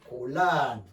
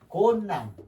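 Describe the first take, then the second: First: The middle consonants sound like 'l l'. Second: The middle consonants sound like 'n n'. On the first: This is how the word is read aloud. "읽을 때는 곤란" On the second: This is how the word is written. "쓸 때는 곤난 이렇게 쓰고"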